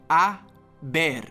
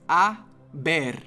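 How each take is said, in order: First: The word starts directly with the vowel. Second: The same.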